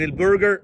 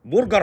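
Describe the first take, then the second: First: البرجر as light "el-berger"; English-style vowels in burger; light correct pronunciation. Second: برجر as full-mouthed "bur-gar"; heavy Arabised vowels in burger; heavy mispronunciation. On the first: Mocker belittling the small version, light pronunciation. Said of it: "لكن البرجر هتاكل واحد". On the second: Mocker saying it will fill you, heavy mispronunciation. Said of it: "برجر هيشبعك". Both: Acted.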